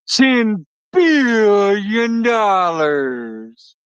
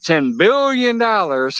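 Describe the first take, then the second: First: It is said in a Doctor Evil voice. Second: It is said in his normal voice.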